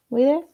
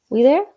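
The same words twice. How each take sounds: First: Said in the usual way. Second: Higher and louder call-out to the audience; loud check-in. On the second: Real, not acted. Coach calling out to her audience, loud and high. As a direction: rouse the room with a loud question.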